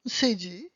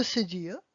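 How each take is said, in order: First: Cédille said the French way, ending on the y glide; French-sounding cédille; French pronunciation. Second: Cédille said the English way, with an added uh at the end; Anglicized cédille; English pronunciation. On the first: French name, then English one. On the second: English name after French one. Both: Shown as a demonstration.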